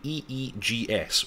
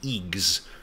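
First: Each letter of the acronym is said separately. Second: The acronym is said as one single word.

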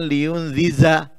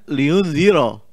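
First: The last syllable has a 'z' sound. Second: The last syllable has an 'r' sound. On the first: The speaker calls it wrong. "dia membaca gayiman liun ziza" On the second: The speaker calls it right. "padahal liun ziro"

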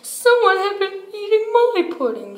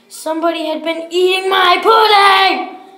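First: It is said in a middle-sized voice. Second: It is said in a great big voice.

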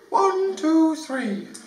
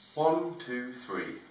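First: It is said in a higher-pitched voice. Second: It is said in a plain male voice.

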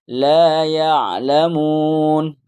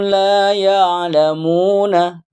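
First: The phrase ends without a final vowel. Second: The phrase ends with a final vowel. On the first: This is the form used after finishing this reading level. "nanti setelah Iqra ini" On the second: This is the full form used at the current level. "Masih Iqra jilid empat dibaca semua"

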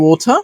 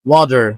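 First: It is said in a British accent. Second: It is said in an American accent. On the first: "British অ্যাকসেন্টে বলছি ওথা" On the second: "American অ্যাকসেন্টে বলতে পারি ওয়াটার"

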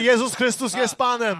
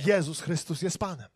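First: The phrase is shouted very loudly. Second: The phrase is spoken at normal volume. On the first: "A później wykrzyczymy to" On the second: "A później powiemy to"

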